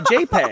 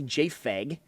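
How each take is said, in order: First: The middle consonant is a p sound. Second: The middle consonant is an f sound. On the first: The speaker calls it right. "you say JPEG" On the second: The speaker calls it wrong. "you don't say JFEG"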